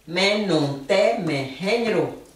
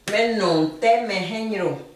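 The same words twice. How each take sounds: First: Slow. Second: Said in the usual way. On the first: Shown as a demonstration. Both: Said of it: "de la sonorité et de la phonétique".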